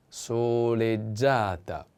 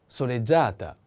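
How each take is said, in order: First: Soleggiata stretched out, so-led-JA-ta, stress on the a; very slow model word. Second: Said in the usual way. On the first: Shown as a demonstration. Teacher modelling the feminine form slowly for students. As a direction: draw out soleggiata for learners. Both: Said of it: "The accent is on A".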